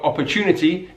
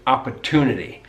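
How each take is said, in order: First: "opportunity" said oppa-chew-nity; British "opportunity" with ch; yod coalescence. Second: "opportunity" said ah-per-too-nity; American "opportunity", plain t-oo, no y; yod dropping. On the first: Teacher giving learners more examples, British pronunciation. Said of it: "we call that yod coalescence". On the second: Teacher giving learners more examples, American pronunciation. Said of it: "in American English". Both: Shown as a demonstration.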